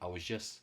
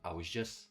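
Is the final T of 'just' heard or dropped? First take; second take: dropped; dropped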